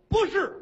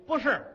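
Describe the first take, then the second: First: Blurted no, much higher and louder; squeaky denial. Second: Quick no, higher and a bit louder; hasty denial. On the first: Red Silk blurts a denial to the queen, squeaky. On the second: Ji Yanping hastily denies to the queen, nervous. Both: Acted.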